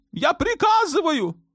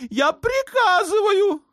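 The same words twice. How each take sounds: First: Put-on a shrill-free but very high, raging young sultan. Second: Much higher, slow, with a cry in the voice; sultan's tearful order. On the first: Sultan demanding war on Malta from his mother, high raging voice. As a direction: play the spoiled sultan demanding vengeance, much higher. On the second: Sultan ordering his mother, slow and tearful. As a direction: squeeze out the order like a tantrum. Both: A narrator's reading.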